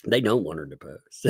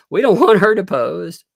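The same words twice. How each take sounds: First: Said in the usual way. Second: Louder, hammed-up panicked plaintiff's line; loud mock panic. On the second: Mocking the panicked plaintiff to viewers, loud. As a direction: blurt it out like the panicking plaintiff side. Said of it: "he's probably panicked because he's like".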